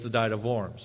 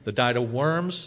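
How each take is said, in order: First: Worms begins with a German V sound. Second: Worms begins with an English W sound. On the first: The speaker calls it right. "pronouncing the W as a German is important" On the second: The speaker calls it wrong. "is not as good as"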